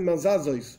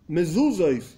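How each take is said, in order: First: The first two vowels are both 'a'. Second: The first two vowels are 'e' then 'u'. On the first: The bare letters are read to check the spelling. The speaker calls it wrong. "Mazazois no quiere decir nada" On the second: The word is read as it is meant. The speaker calls it right. "Mezuzois se dice, no mazazois"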